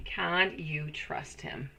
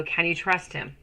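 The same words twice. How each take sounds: First: Half the speed and much softer; slow, hushed pondering. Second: Said in the usual way. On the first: Real, not acted. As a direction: muse on it quietly to yourself. Reads viewer question twice.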